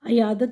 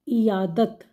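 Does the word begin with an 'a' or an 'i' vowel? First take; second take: a; i. First: The word begins with an 'a' vowel. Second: The word begins with an 'i' vowel. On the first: The speaker calls it wrong. "अयादत दुरुस्त नहीं है" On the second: The speaker calls it right. "आइन के नीचे ज़ेर है"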